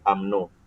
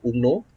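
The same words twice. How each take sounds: First: "umno" said as "am-no"; accepted acronym pronunciation. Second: "umno" said as written, "oom-no"; spelled-out pronunciation, not used. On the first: Teacher giving the accepted reading, "umno" as "am-no". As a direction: say "umno" with an open "am" start. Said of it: "kita akan sebutkan dia sebagai umno". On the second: Teacher contrasting the unused reading, "umno" as spelt. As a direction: read "umno" by its Malay spelling. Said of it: "tapi kita tak sebut umno". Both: Shown as a demonstration.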